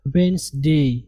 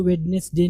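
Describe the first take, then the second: First: वेडनेसडे as "WENZ-day", d silent; two syllables in वेडनेसडे, pitched low; correct pronunciation. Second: वेडनेसडे with its d sounded; three-syllable वेडनेसडे, as spelt; mistaken spelling pronunciation. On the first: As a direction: drop the d from वेडनेसडे, "wens-day". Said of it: "इसको पढ़ेंगे हमेशा". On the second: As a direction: say "wed-nes-day" for वेडनेसडे. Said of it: "कभी भी इसको वेडनेसडे नहीं पढ़ेंगे". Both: Shown as a demonstration.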